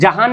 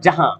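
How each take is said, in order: First: The word ends with a clearly pronounced n. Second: The word ends with a nasalized vowel. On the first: The speaker calls it wrong. "जहान नहीं हो रहा" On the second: The speaker calls it right. "जिसकी आवाज नाक से निकले"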